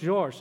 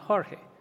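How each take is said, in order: First: The name is said with Portuguese pronunciation. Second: The name is said with Spanish pronunciation. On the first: The name is Portuguese. The speaker calls it right. "Then you know it's Jorge" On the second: The name is Spanish. The speaker calls it wrong. "not Jorge"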